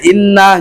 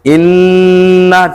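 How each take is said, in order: First: The nasal n sound is cut short. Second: The nasal n sound is held long. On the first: The speaker calls it wrong. "jadi itu nggak boleh inna, nggak boleh" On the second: The speaker calls it right. "harus ditahan dulu dia dua harkat ya"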